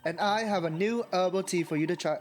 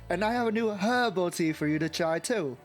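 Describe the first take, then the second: First: The H in herbal is silent. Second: The H in herbal is pronounced. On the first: The speaker calls it wrong. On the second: The speaker calls it right.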